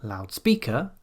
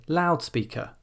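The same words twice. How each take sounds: First: End-weighted "loudspeaker"; stress on second word. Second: Front-stressed "loudspeaker"; stress on first syllable. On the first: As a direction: lean on "speaker" in "loudspeaker". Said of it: "but we don't say". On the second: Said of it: "the stress will be on the first syllable". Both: Shown as a demonstration.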